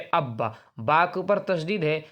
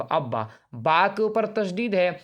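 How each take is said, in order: Both takes have the same delivery.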